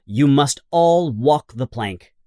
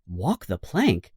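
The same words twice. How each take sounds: First: Commanding Hook. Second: Frightened question. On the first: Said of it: "says Hook". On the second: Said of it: "asks John". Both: A narrator's reading.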